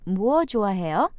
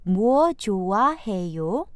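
First: It is said at normal speed. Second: It is said slowly.

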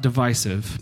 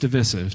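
First: The stressed vowel sounds like the word eye. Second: The stressed vowel sounds like the one in division. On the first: The speaker calls it wrong. "not divisive" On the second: The speaker calls it right. "because we say division"

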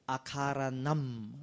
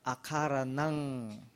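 First: The word ends with an m sound. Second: The word ends with an ng sound. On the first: The speaker calls it wrong. "Not akaranam" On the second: The speaker calls it right. "But akaranang"

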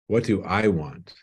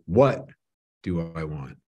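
First: The stress falls on the word 'I'. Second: The stress falls on the word 'what'.

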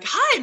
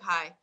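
First: It is said in a cheerful, upbeat voice. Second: It is said in a tired, flat voice.

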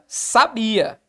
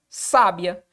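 First: The stress is on the middle syllable. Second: The stress is on the first syllable.

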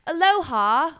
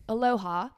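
First: It is said in a British accent. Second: It is said in the speaker's ordinary accent.

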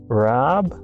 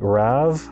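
First: The name ends with a b sound. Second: The name ends with a v sound. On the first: The speaker calls it wrong. "It's not Rab" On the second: The speaker calls it right. "it's like Rav"

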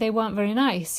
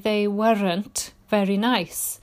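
First: The words are said fast and run together. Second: The words are said slowly and separately. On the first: The speaker calls it right. "the fast speech, putting words closely together" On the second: The speaker calls it wrong. "people tend to say they weren't very nice. And that affects, it makes your accent sound very strong"

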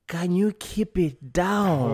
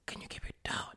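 First: It is said loudly and slowly, half-whispered. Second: It is said in a soft whisper.

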